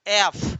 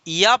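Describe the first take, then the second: First: The letter name begins directly with a vowel. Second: The letter name begins with a y glide. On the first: The speaker calls it right. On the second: The speaker calls it wrong.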